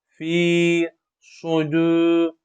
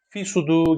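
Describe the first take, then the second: First: The vowel in fi is drawn out long. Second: The vowel in fi is kept short. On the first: The speaker calls it right. "bir elif miktar uzatılmasına dikkat ediyoruz" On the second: The speaker calls it wrong. "direkt uzatılmadan okuyuşlar çok karşımıza çıkmakta"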